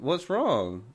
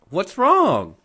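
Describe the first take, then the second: First: Slow, drawn-out question; imitated unconcerned sister. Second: High, loud "what's wrong?"; raised, louder mimicry; mock pestering sister. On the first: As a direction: casually stretch out WRONG as the sister. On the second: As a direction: imitate a sister needling with the question. Sister repeats question, irritatingly.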